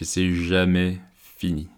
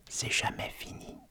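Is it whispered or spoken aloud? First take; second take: aloud; whispered. First: It is spoken in a normal voice. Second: It is spoken in a whisper.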